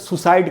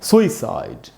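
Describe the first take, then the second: First: The first vowel is short and unstressed. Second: The first vowel is long and stressed. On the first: The speaker calls it wrong. "वो सही नहीं है उच्चारण" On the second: The speaker calls it right. "सु में जो ऊ है उसी पर स्ट्रेस है, वहां ज्यादा रुकना है"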